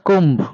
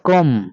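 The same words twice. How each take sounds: First: The final B sound is pronounced. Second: The final B sound is not pronounced. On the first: The speaker calls it wrong. "Not comb" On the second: The speaker calls it right. "Here letter B is silent"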